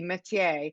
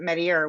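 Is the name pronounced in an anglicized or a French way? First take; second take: French; anglicized. First: The name is pronounced with French sounds. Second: The name is pronounced with English sounds. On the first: "it's pronounced like the French way would be" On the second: "the residents pronounce it"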